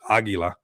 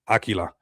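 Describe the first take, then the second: First: The middle consonant is a soft g sound. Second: The middle consonant is a hard k sound. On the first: This is the Spanish way of saying it. "how we say it in Spanish, Aguila. You know, we say it with a G" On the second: This is the form used in the name. "it's spelled with a Q here"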